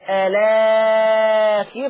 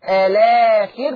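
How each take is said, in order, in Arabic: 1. يُشبع الحرف الممدود إشباعًا متوسطًا. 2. يُشبع الحرف الممدود إشباعًا قصيرًا. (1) "توسط" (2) "بالقصر"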